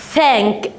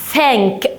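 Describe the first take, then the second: No difference in how they are said.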